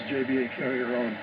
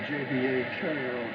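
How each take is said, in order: Both takes have the same delivery.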